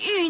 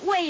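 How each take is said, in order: First: The syllable is pronounced yu. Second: The syllable is pronounced wei. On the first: It is read this way as a surname. "那为什么念玉呢？" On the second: It is read this way as an ordinary word. "它不是尉吗？"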